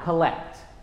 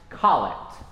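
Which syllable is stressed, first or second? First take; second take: second; first. First: The stress is on the second syllable. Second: The stress is on the first syllable. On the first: The speaker calls it wrong. "not collect" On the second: The speaker calls it right. "it is pronounced collect"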